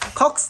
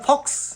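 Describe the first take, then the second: First: The word begins with a harsh kh sound. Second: The word begins with a clear f sound. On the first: The speaker calls it wrong. "খক্স নহয়" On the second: The speaker calls it right. "নহয় ফক্স"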